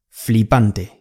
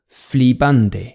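The two takes are said the same way.

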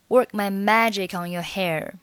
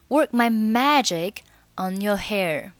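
First: Magic runs straight into on without a break. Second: Magic and on are said as separate words. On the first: "后面的magic 和on 你可以选择连读成magic on" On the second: "那你也可以选择不连。"

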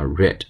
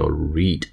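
First: The vowel is short, like 'red'. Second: The vowel is long, like 'reed'. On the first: It is the past tense. "过去时呢就是还是read，只不过发音发read" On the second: It is the present tense. "读书叫read"

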